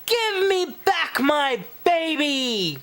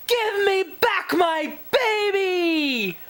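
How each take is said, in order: First: Much higher shouted demand; demanding fish. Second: Much higher, slow desperate shout. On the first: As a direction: bellow for your stolen baby. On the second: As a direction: scream down the hole for your child. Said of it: "father yelled down the hole". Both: Acted.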